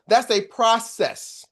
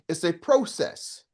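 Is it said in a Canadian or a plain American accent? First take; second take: American; Canadian. First: It is said in a plain American accent. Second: It is said in a Canadian accent.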